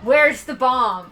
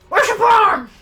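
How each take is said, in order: First: It is said without the character voice. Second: It is said in a put-on character voice. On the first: The speaker calls it wrong. "I wasn't doing that voice right" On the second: The speaker calls it right. "there you go"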